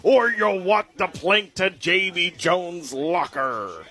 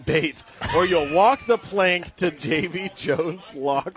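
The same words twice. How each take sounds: First: Slow, full pirate growl; really commit to the pirate. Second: Slow, hammed-up pirate read. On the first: Acted. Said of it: "let me get this to you authentically". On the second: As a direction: growl it like a pirate captain. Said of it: "It, it says in a pirate voice".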